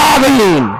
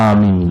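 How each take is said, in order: First: The word is shouted at full, straining volume. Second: The word is said aloud at moderate volume. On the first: The speaker calls it wrong. "গলা ফাটি" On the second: The speaker calls it right. "Medium কণ্ঠ"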